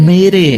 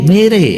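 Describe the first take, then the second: The two takes are said the same way.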